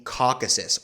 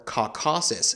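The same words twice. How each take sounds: First: Caucasus stressed on the first syllable, KAW-kuh-sus; first pronunciation variant. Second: Caucasus with a full middle vowel, kaw-KAH-sus; alternative pronunciation variant. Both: Shown as a demonstration. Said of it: "depending on your pronunciation".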